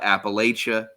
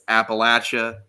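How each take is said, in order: First: The third syllable sounds like 'lay'. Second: The third syllable sounds like 'latch'. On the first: The speaker calls it wrong. "It's not Appalachia because we'll throw an apple at you if you say it wrong" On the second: The speaker calls it right. "he would say it's Appalachia"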